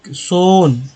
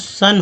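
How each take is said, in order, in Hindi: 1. स्वर 'oh' वाली ध्वनि है। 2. स्वर एक छोटी 'uh' ध्वनि है। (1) "सोन नहीं होता" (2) "एस ओ एन से सन होता है"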